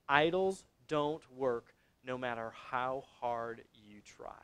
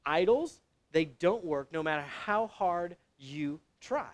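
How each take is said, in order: First: Measured delivery, falling away soft and low; slow, deliberate statement. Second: "Idols" lifted with a rise, then slow words; emphatic repeat. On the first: Preacher giving the congregation the key point, slow and sinking. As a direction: lay the point down slowly, dropping off at the end. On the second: Preacher driving the key point home, emphatic with rising "Idols". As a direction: set "Idols" apart, rising, then press each word slowly. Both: Real, not acted.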